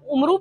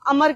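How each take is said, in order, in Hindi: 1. यह u से शुरू होता है और u पर खत्म होता है। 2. यह a से शुरू होता है और इसमें अंत में कोई स्वर नहीं है। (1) "ये देखने में तो आप उमरू पढ़ते हैं" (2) "अरेबिक ग्रामर के रूल से इसको हम अमर कहते हैं"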